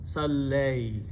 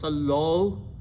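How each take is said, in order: First: The word ends in an 'ay' sound. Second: The word ends in an 'o' sound. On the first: The speaker calls it right. "is smooth" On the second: The speaker calls it wrong. "instead of"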